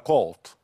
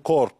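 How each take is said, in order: First: The word is said with no r sound. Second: The word is said with an audible r sound. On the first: The speaker calls it right. "بس هي في الواقع كولت، ما فيش ار خالص" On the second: The speaker calls it wrong. "احنا هنا في مصر ممكن نقول كورت"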